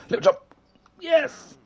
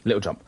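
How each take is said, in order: First: Much higher playful squeak; high squeaky voice. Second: Said in the usual way. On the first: Shown as a demonstration.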